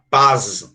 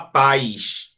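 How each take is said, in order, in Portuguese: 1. A palavra termina com um som de z vibrado. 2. A palavra termina com um som de chiado, parecido com 'sh'. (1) "a gente não fala paz" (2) "a gente fala paz"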